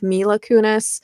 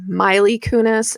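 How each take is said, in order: First: The first name ends in an uh sound. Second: The first name ends in an ee sound. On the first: The speaker calls it right. "instead of Mila Kunis" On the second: The speaker calls it wrong. "just keep wanting to call her Miley Kunis"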